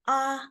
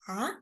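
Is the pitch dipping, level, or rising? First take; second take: level; rising. First: The pitch stays high and level. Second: The pitch rises from middle to high. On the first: "So that is the first tone. It's high-pitched" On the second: "So it's rising tone"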